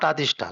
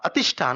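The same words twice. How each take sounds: First: Atishtha with a long, open first "aa"; mistaken long A. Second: Atishtha with a short, unstressed first A. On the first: Teacher shows the mistake, Atishtha with long first A. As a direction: stretch the opening vowel of Atishtha to "aa". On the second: Teacher corrects the Sanskrit word, Atishtha with short first A. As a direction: say Atishtha opening on a brief "uh" vowel. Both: Shown as a demonstration. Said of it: "not Atishtha, sorry".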